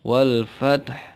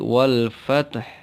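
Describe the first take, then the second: Both takes have the same delivery.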